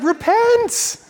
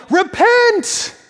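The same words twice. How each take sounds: First: High, drawn-out command; navigator's call. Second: High, loud yelled command; navigator's yell. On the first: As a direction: call it out to the crew. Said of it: "he's like". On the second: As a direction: bellow it across the deck. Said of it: "this navigator would yell". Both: Retold or imitated.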